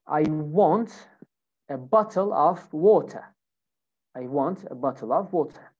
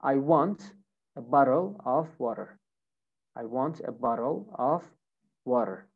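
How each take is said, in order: First: British accent, T pronounced in bottle and water; British pronunciation demo for learners. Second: American pronunciation demo for learners; American accent. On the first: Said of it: "So here in British accent". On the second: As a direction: say it the American way, tapping the Ts. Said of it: "Now, American accent". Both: Shown as a demonstration.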